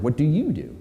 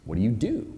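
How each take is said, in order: First: "you" picked out with a pitch peak, then falling; stress on YOU. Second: "do" lifted in a rising question; softer question, landing on a rising "do"; stress on DO. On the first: Speaker showing an audience how emphasis shifts, stress on "you". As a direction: lean on "you" in the question. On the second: Speaker showing an audience how emphasis shifts, stress on "do". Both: Shown as a demonstration. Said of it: "Depending on where you put the emphasis".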